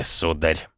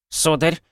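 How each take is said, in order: First: Put-on low, creaky old butler voice. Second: Put-on high, prim old butler voice; polite butler. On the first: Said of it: "проскрипел он". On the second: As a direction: greet him like a fussy old butler. Butler greets the guests.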